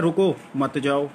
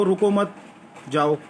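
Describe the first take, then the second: First: Slow रुको, a break, then मत जाओ together; pause after रुको. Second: रुको मत as one higher phrase, pause, then जाओ; pause after मत. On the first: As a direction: set रुको apart and slowly join मत जाओ. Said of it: "और आप समझ रहे हैं". (धीरे से रुको, ठहराव, फिर मत जाओ) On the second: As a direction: hold the break until after मत, then say जाओ. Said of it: "हो सकता है मैंने आपसे कहा हो". (रुको मत, फिर रुककर जाओ) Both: Shown as a demonstration.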